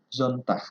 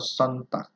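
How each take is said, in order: First: The word begins with a buzzing z sound. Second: The word begins with a hissing s sound. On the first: The speaker calls it right. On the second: The speaker calls it wrong.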